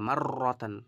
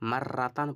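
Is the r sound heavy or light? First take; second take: heavy; light. First: The r sound is heavy with rounded lips. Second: The r sound is thin and light. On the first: The speaker calls it right. "গোল" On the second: The speaker calls it wrong. "মাররাতান পড়বেন না"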